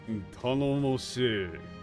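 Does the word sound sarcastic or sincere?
sarcastic. It is said with a dry, mocking tone. The speaker does not actually trust the newcomer.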